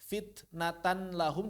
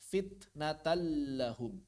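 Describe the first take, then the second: First: The n is pronounced clearly before the l. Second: The n merges into the l without nasalization.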